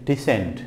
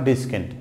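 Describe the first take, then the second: First: The c is silent. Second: The c is sounded as a k. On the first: The speaker calls it right. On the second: The speaker calls it wrong.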